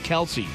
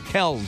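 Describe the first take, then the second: First: The name is said with two syllables. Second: The name is said with one syllable. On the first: This is the common version the family stopped correcting. The speaker calls it wrong. "who got sick of correcting people who mispronounced it. So he just left it Kelsey" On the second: This is the family's original version. The speaker calls it right. "But it's Kells"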